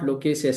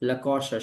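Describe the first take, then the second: First: The second syllable sounds like 'kay'. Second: The second syllable sounds like 'kaw'. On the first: The speaker calls it wrong. "Not लोकेसियस at all" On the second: The speaker calls it right. "It is ला कॉशस"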